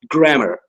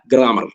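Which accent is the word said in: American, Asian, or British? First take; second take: American; Asian. First: It is said in an American accent. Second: It is said in an Asian accent. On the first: "in American English, it's pronounced grammar"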